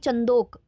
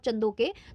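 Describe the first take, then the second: First: The surname ends on a k consonant. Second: The surname ends on an added e vowel. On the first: The speaker calls it right. "जो उनके surname का pronunciation है वो है Simi चंदोक" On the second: The speaker calls it wrong. "Not चंदोके"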